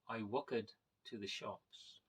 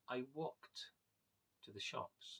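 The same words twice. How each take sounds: First: Walked ends with an extra 'ed' syllable. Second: Walked ends with a plain 't' sound. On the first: The speaker calls it wrong. "instead of saying" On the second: The speaker calls it right. "the E is completely silent and is replaced by a T sound"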